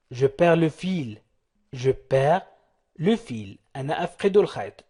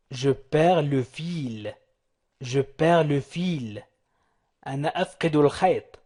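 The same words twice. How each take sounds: The two takes are said the same way.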